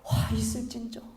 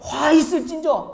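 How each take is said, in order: First: It is said in a calm tone. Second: It is said in an angry tone.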